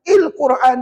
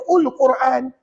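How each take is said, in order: First: The word begins with the vowel i. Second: The word begins with the vowel u. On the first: "il Quran salah" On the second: "Kalau ada siapa yang baca ul Quran"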